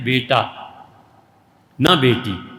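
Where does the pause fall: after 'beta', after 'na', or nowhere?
after beta. There is a pause right after the first word. A son, not a daughter. "उनका जब बेटा हो जाता है तो हज़रत कहते हैं"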